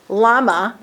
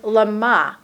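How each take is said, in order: First: "lama" as LA-ma, stress on the first syllable; everyday Hebrew lama. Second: "lama" as lə-MA, the accent on the last syllable; "lama" with the final syllable stressed; lama, stressed at the end. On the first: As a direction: say "lama" the ordinary Israeli way, LA-ma. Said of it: "which is how you normally say lama". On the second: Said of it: "see where the accent is?". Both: Shown as a demonstration.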